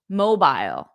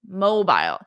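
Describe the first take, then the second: First: It is said in a British accent. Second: It is said in a British accent.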